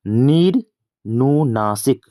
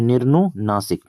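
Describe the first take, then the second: First: "निर्नुनासिक" stretched slowly, piece by piece; slow dictation of "निर्नुनासिक" with pauses between parts; drawn out. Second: Said in the usual way. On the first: Shown as a demonstration. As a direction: draw out each part of "निर्नुनासिक" for the class. Teacher spells out the answer slowly.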